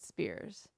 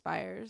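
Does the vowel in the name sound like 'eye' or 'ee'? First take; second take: ee; eye. First: The vowel sounds like the letter 'e'. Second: The vowel sounds like the word 'eye'. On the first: This is how most other people say the name. "Everyone always pronounces it Spears" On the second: This is how the family says the name. "my last name is pronounced Spires"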